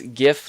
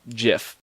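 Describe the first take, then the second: First: It starts with a hard g sound. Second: It starts with a soft j sound. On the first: The speaker calls it right. "GIF like God" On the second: The speaker calls it wrong. "not GIF like, well, GIF"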